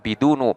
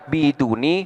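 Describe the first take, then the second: First: The word ends in a short u vowel. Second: The word ends in a short i vowel. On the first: "boleh pula dibaca bidunu" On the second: "boleh dibaca biduni"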